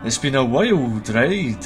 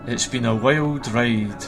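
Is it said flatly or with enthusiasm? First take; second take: enthusiastically; flatly. First: It is said with pep and enthusiasm. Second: It is said flatly, without much energy.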